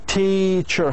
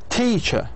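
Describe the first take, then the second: First: The stressed syllable is drawn out longer. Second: The stressed syllable is said on higher pitch.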